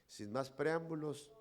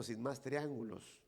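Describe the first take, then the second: First: "preámbulos" said clearly as the right word; the proper phrase "Sin más preámbulos"; correct word. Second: "triángulos" said in place of "preámbulos", lightly imitating the pastor; mock-pompous "triángulos"; the pastor's wrong word. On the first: Shown as a demonstration. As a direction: set "preámbulos" against the wrong "triángulos". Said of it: "se dice preámbulo". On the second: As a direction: quote the slip "sin más triángulos" as he said it. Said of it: "pero él dijo".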